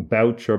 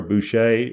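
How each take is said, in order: First: Boucher said as BOW-cher; anglicised pronunciation. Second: Boucher said as boo-SHAY; French-style pronunciation. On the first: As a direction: say Boucher the English way, rhyming with voucher. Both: Shown as a demonstration. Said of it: "whatever way you want to pronounce it".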